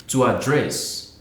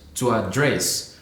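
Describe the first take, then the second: The two takes are said the same way.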